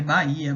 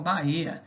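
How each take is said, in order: First: Said in the usual way. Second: "Bahia" said as Ba-ê-a; fans' pronunciation. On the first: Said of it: "Na verdade, o nome é Bahia". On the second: Retold or imitated. Teacher showing how supporters say it, "Bahia" as Ba-ê-a. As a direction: open the stressed i of "Bahia" into an ê. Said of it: "pronunciam dessa forma".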